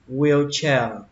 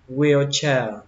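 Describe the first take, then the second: No difference in how they are said.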